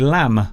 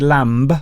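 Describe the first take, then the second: First: The word ends on the M sound. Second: A B sound is heard after the M. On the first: The speaker calls it right. "You say lamb, lamb. So the M, the letter M, will end the word" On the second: The speaker calls it wrong. "You don't say lamb"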